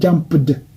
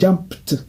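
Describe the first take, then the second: First: The ending is said as an extra syllable. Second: The ending is said as a bare t sound. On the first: The speaker calls it wrong. "Ce n'est pas jumped" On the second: The speaker calls it right. "c'est jumped"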